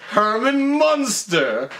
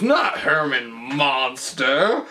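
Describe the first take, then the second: First: "Munster" with "uh" in the first syllable, higher and drawn out; corrected pronunciation Munster. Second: "Monster" with an open "ah" in the first syllable; rejected pronunciation Monster. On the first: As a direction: stretch "Munster", first vowel as in "fun". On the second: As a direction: say "Monster" slowly, first vowel as in "father". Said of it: "And, and then he goes". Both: Retold or imitated.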